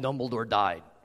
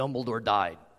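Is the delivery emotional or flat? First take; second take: flat; flat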